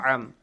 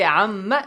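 First: The word ends on a held nasal with no vowel. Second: The word ends with a short vowel after the nasal. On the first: The speaker calls it right. "No, am" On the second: The speaker calls it wrong. "If he say amma, it's wrong"

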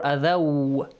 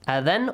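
First: The n sound merges into the following w. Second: The n sound is kept separate and clear. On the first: The speaker calls it right. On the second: The speaker calls it wrong.

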